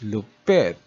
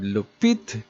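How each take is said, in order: First: The last vowel sounds like 'eh'. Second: The last vowel sounds like 'ee'. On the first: "is pronounced as lupet" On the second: "the word lupit"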